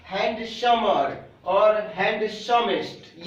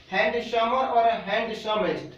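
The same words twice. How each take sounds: First: Slow dictation. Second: Said in the usual way. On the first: Shown as a demonstration. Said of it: "क्या?". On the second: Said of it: "बता रहा हूँ एक".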